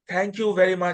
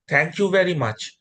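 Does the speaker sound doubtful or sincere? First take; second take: doubtful; sincere. First: It is said flatly, with a doubtful tone. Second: It is said warmly, with sincere belief. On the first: The speaker does not believe in it. The speaker calls it wrong. "It's not that, ... I don't believe you" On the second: The speaker truly believes in it. The speaker calls it right. "you're saying it with faith"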